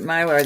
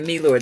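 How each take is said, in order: First: The name is said the common American way. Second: The name is said the Italian way. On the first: This is how most people around here say it. "many people pronounce it Mylar" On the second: This is how Italian speakers say it. "when I start saying Milor"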